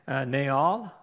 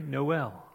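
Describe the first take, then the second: First: The word is said with a French accent. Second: The word is said with an American accent. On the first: "Translates into French, where the T is silent. And so we have Naal" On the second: "or how we pronounce it in Missouri"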